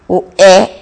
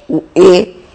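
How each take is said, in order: First: "E" as an open eh vowel; E aberto. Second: "e" as a closed ay vowel, no glide; E fechado. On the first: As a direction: open up the "E" like the é in café. ("E" aberto, som de é) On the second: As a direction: close the "e" to a pure ê. ("e" fechado, som de ê) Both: Shown as a demonstration. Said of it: "vários outros fonemas vocálicos".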